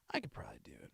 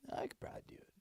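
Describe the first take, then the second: First: Said in the usual way. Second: Soft unvoiced whisper. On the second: Real, not acted. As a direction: whisper it to yourself. Whispered to self.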